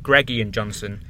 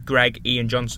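First: Greg and Ian run together as one word. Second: Greg and Ian are said as separate words. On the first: The speaker calls it wrong. "Not Greg Ian Johnson. Greg Ian isn't one word" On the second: The speaker calls it right. "And I'm Greg Ian Johnson"

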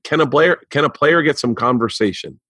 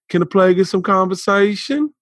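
First: Spoken plainly in a neutral accent. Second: Spoken in an imitated African American accent. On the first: The line sounds flat and uncool. The speaker calls it wrong. "I'll say it without the accent so you can hear how bad it is" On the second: The line sounds cool. The speaker calls it right. "But when he said it, it was he was like"

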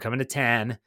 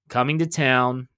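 First: It is said in a Pittsburgh accent. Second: It is said in a neutral accent.

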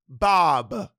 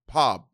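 First: The name begins with a voiced b sound. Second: The name begins with a voiceless p sound. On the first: This is the usual way to say the name. "I don't need to be like, Bob" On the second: This imitates how someone else said the name. "my bodega used to call me Pop. That's how you pronounce my name"

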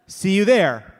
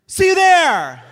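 First: It sounds short and annoyed. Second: It sounds bright and excited.

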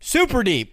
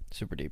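First: It is said with more enthusiasm. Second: It is said flatly, without enthusiasm.

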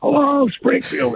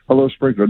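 First: It is said very loudly, as to a crowd. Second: It is said louder, as to twenty people.

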